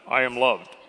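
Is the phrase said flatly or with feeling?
flatly. It is said flatly, without any feeling. The speaker does not really believe it. The speaker calls it wrong. "Then notify your face. You're like"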